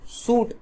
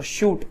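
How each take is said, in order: First: सूट begun with a plain s; s sound. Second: शूट begun with a hushing sh; sh sound. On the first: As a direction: say सूट as "suit", not "shoot". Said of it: "देखो स का प्रयोग हुआ है". (सूट को 'स' से बोलें) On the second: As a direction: say शूट as "shoot", not "suit". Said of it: "श का प्रयोग हुआ है". (शूट को 'श' से बोलें) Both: Shown as a demonstration.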